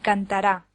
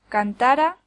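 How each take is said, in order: First: The stress is on the last syllable. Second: The stress is on the middle syllable. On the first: It is a future verb form. "la tercera es el futuro de indicativo del verbo cantar" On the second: It is a subjunctive verb form. "La segunda es una forma subjuntiva del verbo cantar"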